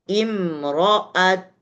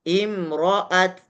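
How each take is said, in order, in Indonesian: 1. Huruf t di akhir dilepas dengan bibir membulat. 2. Huruf t di akhir dilepas dengan bibir membulat.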